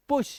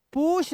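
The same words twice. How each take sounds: First: पुश with a short oo; crisp short पुश; right reading. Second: पुश with a long oo, said higher; wrong reading. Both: Shown as a demonstration. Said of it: "पुश नहीं".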